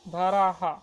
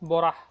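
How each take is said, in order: First: The name is pronounced the English way. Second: The name is pronounced the Bengali way. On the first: "এটা ইংরেজিতে তোমরা একভাবে উচ্চারণ করলে হলো" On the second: "বাংলাতে এটা আসল হবে হচ্ছে বরাহ"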